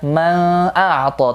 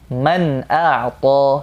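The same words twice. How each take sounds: First: The n sound is blurred into the next sound. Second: The n sound is pronounced clearly and separately. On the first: The speaker calls it wrong. "jangan dibaca man a'ta" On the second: The speaker calls it right. "dibaca jelas"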